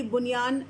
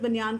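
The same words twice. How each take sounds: First: بنیان as "bunyaan", short u after b; original pronunciation. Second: Said in the usual way. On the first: Shown as a demonstration. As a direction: begin بنیان with "bu". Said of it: "تو یہ بنیان اگر ہے". (بنیان، بے پر پیش کے ساتھ) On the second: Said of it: "اگر ہم لفظ بنیان کو ہی لے لیں".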